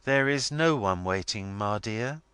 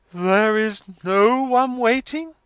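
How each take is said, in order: First: Said in the usual way. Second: Slow, high, loud and majestic; majestic accents. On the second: A narrator's reading. Missus Wilfer repeats her daughter's words, majestic disbelief. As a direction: repeat it with grand, drawn-out majesty. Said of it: "in majestic accents".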